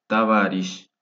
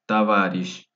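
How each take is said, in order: Both takes have the same delivery.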